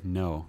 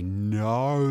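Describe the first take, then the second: First: The vowel in no is not Australian. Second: No has a broad Australian diphthong.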